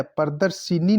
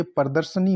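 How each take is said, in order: First: प्रदर्शिनी with i before the n; mispronounced प्रदर्शनी. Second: Said in the usual way. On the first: Shown as a demonstration. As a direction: say प्रदर्शिनी as "pradar-shi-ni". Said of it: "प्रदर्शिनी नहीं होता". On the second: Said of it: "ये प्रदर्शनी होता है".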